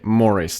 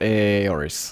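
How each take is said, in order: First: The name begins with an M sound. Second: The name begins with a vowel sound. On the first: The speaker calls it right. "It's supposed to be Morris" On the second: The speaker calls it wrong. "not Aoris"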